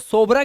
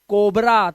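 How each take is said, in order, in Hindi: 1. शब्द की शुरुआत s ध्वनि से होती है। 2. शब्द की शुरुआत k ध्वनि से होती है। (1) "अब इसे सोबरा क्यों नहीं पढ़ते" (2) "इसे पढ़ते हैं कोबरा"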